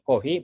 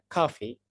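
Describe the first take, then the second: First: It is pronounced the Japanese way, as kohi. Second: It is pronounced the English way, like coffee. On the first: A Japanese listener understands it. The speaker calls it right. "Diubahlah sesuai dengan lidah Jepang menjadi kohi" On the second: A Japanese listener would not understand it. The speaker calls it wrong. "kalau kita ngomong mau ngomong coffee ke orang Jepang bacanya uh, bilangnya cafe"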